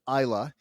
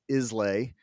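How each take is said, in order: First: The name is said unlike the usual American version. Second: The name is said the usual American way.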